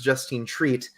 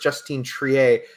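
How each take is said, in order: First: The surname sounds like the word 'treat'. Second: The surname does not sound like 'treat'.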